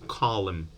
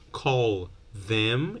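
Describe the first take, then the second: First: The words run together without the th sound. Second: Both words are said fully and separately.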